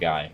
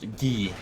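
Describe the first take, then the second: First: The name sounds like the English word guy. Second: The name is said with a French pronunciation. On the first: The speaker calls it wrong. "I need to not pronounce his game Guy, because that's just going to be so confusing" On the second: The speaker calls it right. "it should be pronounced Guy, because it is from French"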